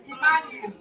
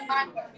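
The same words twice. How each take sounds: First: "Emmanuel" as i-MAN-u-el; correct pronunciation. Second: "Emmanuel" in the mistaken way; wrong pronunciation. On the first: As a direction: stress the second syllable of "Emmanuel". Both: Shown as a demonstration. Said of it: "Not Emmanuel".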